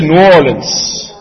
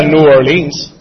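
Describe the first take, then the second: First: New Orleans run together as locals say it; local pronunciation. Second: Said in the usual way. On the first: Shown as a demonstration. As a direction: say New Orleans slowly, syllables blended like a local. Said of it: "tú dices New Orleans". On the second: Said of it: "Tú no dirías New Orleans".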